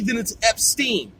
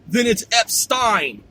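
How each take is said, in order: First: The second syllable rhymes with 'seen'. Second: The second syllable rhymes with 'line'. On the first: "If it's I E" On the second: "If it's E I"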